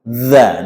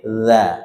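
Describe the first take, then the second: First: The syllable is said harshly and forcefully. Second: The syllable is said gently and softly. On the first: The speaker calls it wrong. "Jangan terlalu kasar" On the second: The speaker calls it right. "diucapkan dengan lunak"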